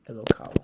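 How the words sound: The word ends with a u sound. "You could also say Elokau if you were uh, Yemenite"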